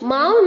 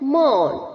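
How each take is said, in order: First: The vowel sounds like 'ow' in 'cow'. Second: The vowel sounds like 'aw' in 'law'. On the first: The speaker calls it wrong. "गलत pronunciation है बच्चों, माउन नहीं होता है" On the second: The speaker calls it right. "यू को हमें pronounce नहीं करना है"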